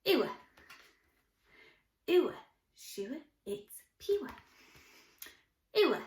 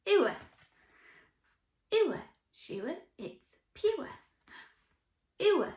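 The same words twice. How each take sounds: The two takes are said the same way.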